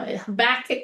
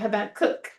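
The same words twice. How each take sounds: First: The stress falls before the last syllable. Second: The stress falls on the last syllable. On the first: The speaker calls it wrong. "would not be the right way" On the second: The speaker calls it right. "the accent is on the last syllable"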